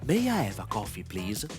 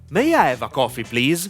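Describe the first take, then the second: First: It is spoken quietly, with little breath. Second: It is spoken at a moderate loudness. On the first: "Low volume. ... There is a little air that goes out of my mouth" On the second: "Medium volume"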